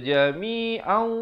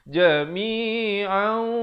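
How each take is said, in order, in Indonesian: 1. Akhirannya tidak ada dengung. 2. Akhirannya ada dengung yang ditahan. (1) "dah sudah masuk tapi dengung tak ada" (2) "dengan kadar dua harakat"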